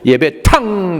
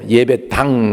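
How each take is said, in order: First: The last syllable starts with a strong, aspirated consonant. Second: The last syllable starts with a soft consonant. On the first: "중국 사람들은 발음이 세요" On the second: "그냥 예배당이 아니고"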